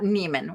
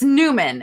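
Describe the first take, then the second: First: The first syllable has an 'ay' or 'ee' vowel. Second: The first syllable has an 'oo' vowel. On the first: The speaker calls it wrong. "not Neiman. Why am I saying Neiman?" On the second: The speaker calls it right. "It's it's it's Newman"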